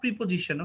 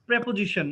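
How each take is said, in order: First: The first vowel sounds like 'ee'. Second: The first vowel sounds like 'eh'. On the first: The speaker calls it wrong. "Not প্রিপোজিশন" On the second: The speaker calls it right.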